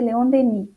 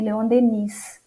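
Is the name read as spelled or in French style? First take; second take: French style; as spelled. First: The name is said with French pronunciation. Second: The name is read the way it is spelled. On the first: The speaker calls it right. "a pronúncia correta é Leon Denis" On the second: The speaker calls it wrong. "apesar de escrever Leon Denis"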